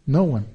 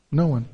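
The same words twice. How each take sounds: The two takes are said the same way.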